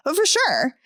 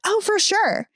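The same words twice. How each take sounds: First: Raised, breezy "Oh, for sure"; imitating coworker. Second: High, sing-song "Oh, for sure"; mock the coworker's breezy yes; imitating coworker. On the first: Mimicking coworker answering the boss casually. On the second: Mocking coworker's breezy reply to the boss. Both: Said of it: "it's always in that tone too".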